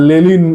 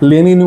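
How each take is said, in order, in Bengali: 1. মাঝের ব্যঞ্জনটি l ধ্বনি। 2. মাঝের ব্যঞ্জনটি n ধ্বনি।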